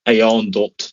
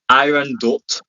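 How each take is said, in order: First: The first name is said like 'ayon'. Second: The first name is said like 'iron'. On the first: The speaker calls it right. "They say Ayon Dot" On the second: The speaker calls it wrong. "I don't know why it's spelled"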